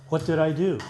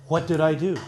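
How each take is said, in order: No difference in how they are said.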